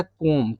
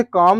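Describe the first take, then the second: First: "कोम" with a long rounded "o", silent b; correct pronunciation. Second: "कॉम" with an open, long "aa" vowel; mistaken pronunciation. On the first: Teacher correcting students on comb, "कोम" with rounded o. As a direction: say "कोम" like "kome", no final b. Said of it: "इसको पढ़ा जाता है कोम". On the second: Teacher showing students a common misreading, "कॉम" with open vowel. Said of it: "इसे कॉम नहीं पढ़ा जाता है". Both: Shown as a demonstration.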